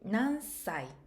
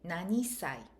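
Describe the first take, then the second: First: 'Nan' runs straight into 'sai', no vowel. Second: An extra 'i' sound comes before 'sai'. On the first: The speaker calls it right. "Nansai is correct" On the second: The speaker calls it wrong. "You don't say nanisai"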